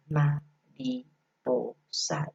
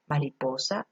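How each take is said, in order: First: "mariposa" split very slowly into ma-ri-po-sa; slow syllable split. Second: Said in the usual way. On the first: Shown as a demonstration. Showing teachers how to segment syllables: "mariposa" stretched syllable by syllable. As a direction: clap out each syllable of "mariposa" for the kids. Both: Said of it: "separarla según sus sonidos".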